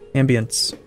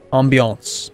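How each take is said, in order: First: The word is pronounced the plain English way. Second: The word is pronounced with a French-like sound.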